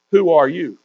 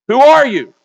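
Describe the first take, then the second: First: Said in the usual way. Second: Loud, high preacher's demand; raised voice, falling sharply at the end; forceful challenge. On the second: Acted. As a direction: thunder the question at the congregation. Verse repeated as forceful challenge.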